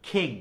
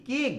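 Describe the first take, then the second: First: খিং with a burst of air on kh; corrected খিং, kh first; aspirated king. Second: কিং with a plain k; the wrong কিং, no puff of air; dry k in questioning কিং; unaspirated king. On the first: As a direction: answer with a breathy-started খিং. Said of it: "উচ্চারণটা কি বলতো". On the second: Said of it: "No, উচ্চারণটা কি বলতো". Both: Shown as a demonstration.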